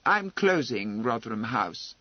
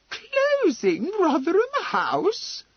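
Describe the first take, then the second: First: Said in the usual way. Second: Very high, loud, drawn-out disbelieving question; incredulous exclamation. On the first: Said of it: "without heat, but with finality". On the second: Acted. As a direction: echo it as if you can't believe your ears. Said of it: "exclaimed Lady Laleham, as though she could not believe her ears".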